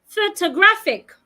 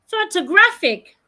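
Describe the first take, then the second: The two takes are said the same way.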